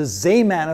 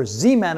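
First: "Zeeman" with first syllable as ZAY; alternative pronunciation. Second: "Zeeman" with first syllable as ZEE; alternative pronunciation. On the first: Lecturer offering viewers one way to say the name, "Zeeman" as ZAY-man. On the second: Lecturer offering viewers another way to say the name, "Zeeman" as ZEE-man. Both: Shown as a demonstration. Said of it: "however you want to pronounce it".

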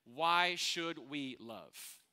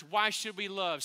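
First: Very slowly, weighing each word; slow, weighed question. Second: Louder, questioning call to the room; calling out to church. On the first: Pastor poses a question to the congregation, drawn out slowly. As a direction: let the question hang slowly. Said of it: "answers the question". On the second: Pastor calls out to the church, a little louder. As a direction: throw the question out to the crowd. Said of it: "Hey, church". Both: Shown as a demonstration.

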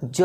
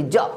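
First: जौ with a long held vowel; drawn-out जौ. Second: जौ cut short like a half letter; clipped जौ. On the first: Teacher showing the full letter, जौ stretched long. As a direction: stretch जौ right out. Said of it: "अब खींच करके पढ़िए". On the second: Teacher showing how not to read it, जौ clipped short. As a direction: chop the vowel of जौ off abruptly. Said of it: "अब इसको ज नहीं पढ़ेंगे". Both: Shown as a demonstration.

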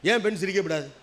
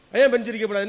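First: Said in the usual way. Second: ஏன் punched louder, the whole question raised; stress on ஏன். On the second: Shown as a demonstration. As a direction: hit ஏன் hard in protest. (ஏன் என்பதை உரக்க அழுத்திக் கேள்)

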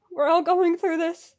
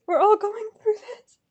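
First: Said in the usual way. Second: High voice climbing and thinning out; distressed squeak. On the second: Real, not acted. Fan commiserating with others waiting, distressed squeak. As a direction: let it rise into a small whine. Consoling fellow waiting fans.

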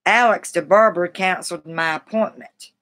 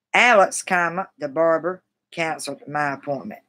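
First: Said in the usual way. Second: Alex stressed, a clear pause after "Alex," before the rest. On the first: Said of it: "Here's an example". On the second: Shown as a demonstration. Showing stream viewers where the comma falls, Alex stressed then a pause. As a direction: lean on "Alex," then stop a beat. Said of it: "stress the word like Alex and probably pause after saying his name".

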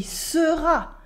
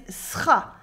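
First: "sera" with both vowels sounded; careful "sera", the first e kept; full pronunciation. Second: "sera" squeezed into one syllable, "sra"; dropped vowel. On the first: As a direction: say "sera" as two clear syllables, se-ra. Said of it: "She also doesn't say". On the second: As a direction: drop the e in "sera". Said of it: "she says". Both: Shown as a demonstration.

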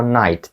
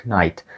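First: "night" with a silent K, just "nite"; correct knight. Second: "knight" said with the K sounded, "k-night"; wrong knight. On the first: Teacher giving students the right version, silent K. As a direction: drop the K in "night" completely. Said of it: "ми кажемо night". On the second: Teacher showing students the wrong way, K sounded. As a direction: sound the silent K in "knight" on purpose. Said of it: "Ми не кажемо knight". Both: Shown as a demonstration.

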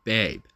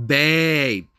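First: Said in the usual way. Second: Loud, high, drawn-out BABE; mocking pet name. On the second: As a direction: blare BABE in disbelief.

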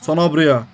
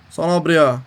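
The two takes are said the same way.

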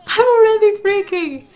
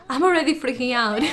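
First: Louder, higher panicked yelp; freaked-out outburst. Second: Said in the usual way. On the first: Real, not acted. Gamer panicking as the kids wake up, loud freaked-out yelp. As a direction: let the panic burst out. Stressed over Sims game.

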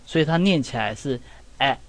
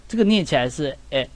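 First: 哎 said with the mouth wide open, jaw dropped. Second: 哎 said with the mouth half open, flatter and quicker. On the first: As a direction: drop the jaw and say 哎 open and short. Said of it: "下巴要尽量往下拉". (嘴巴张大念"哎") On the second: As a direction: say 哎 with the jaw only half open. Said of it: "这个嘴巴是半开". (嘴巴半开、声音扁一点念"哎") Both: Shown as a demonstration.

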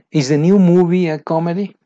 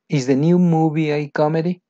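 First: First take louder and higher; loud model question. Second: Said in the usual way. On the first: Shown as a demonstration. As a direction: project the question. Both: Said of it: "question read twice".

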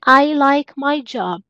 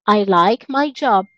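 First: Said in the usual way. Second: Slowed repeat for the class; careful teacher modelling; slow model sentence. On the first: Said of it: "teacher reads the example". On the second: Shown as a demonstration. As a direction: say it again slowly for learners. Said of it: "teacher repeats slowly".

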